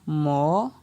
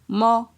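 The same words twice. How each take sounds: First: The syllable has a rising tone. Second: The syllable has a mid tone. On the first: "Ton montant" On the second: "Ton moyen"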